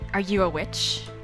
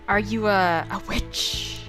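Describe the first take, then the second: First: It is said in a lowered, quiet voice. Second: It is said at normal speaking volume.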